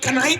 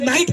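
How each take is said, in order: First: A k sound is heard before the n. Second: The word starts with n, no k sound. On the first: This matches how the word is written. "असल में कनाइट है" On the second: This is how the word is actually read. "नाइट पढ़ी जाती है क्योंकि के silent है"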